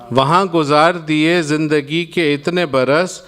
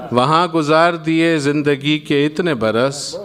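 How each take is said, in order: Both takes have the same delivery.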